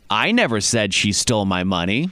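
The word 'I' is stressed. Someone else said it, not the speaker. "meaning that I never said it. Somebody else said it"

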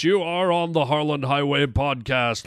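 It is said in a put-on announcer voice.

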